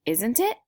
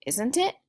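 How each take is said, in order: First: Isn't it rising up at the end; rising tag question. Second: Isn't it rising again; rising tag question. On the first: Teacher showing the class a rising tag question. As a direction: lift "Isn't it?" like a real question. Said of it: "the question is". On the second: Teacher repeating the tag question with a rise. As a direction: ask "Isn't it?" with a lift. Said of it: "followed by a question". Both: Shown as a demonstration.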